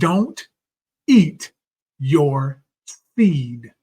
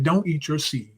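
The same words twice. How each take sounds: First: The phrase is spoken slowly. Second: The phrase is spoken quickly. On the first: The speaker calls it right. "Let me slow down" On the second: The speaker calls it wrong. "I think I said that too fast"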